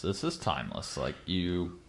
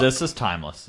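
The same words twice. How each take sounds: First: Said much lower and softer; a softer, lower echo of the same line; low aside. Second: Said in the usual way. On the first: Shown as a demonstration. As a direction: drop it low and quiet, to yourself. Line repeated, second take dropped.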